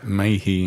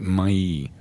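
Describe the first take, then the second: First: The surname is said with an English-style pronunciation. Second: The surname is said with a French-style pronunciation. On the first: This is how outsiders say the name. The speaker calls it wrong. "we don't pronounce it Mayhe in Guernsey" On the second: This is how the family says the name in Guernsey. The speaker calls it right. "We pronounce it Mailly. ... it's French, Norman French"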